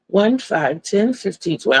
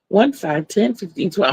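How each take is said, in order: First: The numbers are said at a moderate pace. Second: The numbers are said faster, speeding up.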